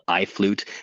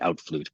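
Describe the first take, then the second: First: The first syllable sounds like 'eye'. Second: The first syllable sounds like 'out'. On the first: "it's called I Flute" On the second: "I've also heard some people say outflute"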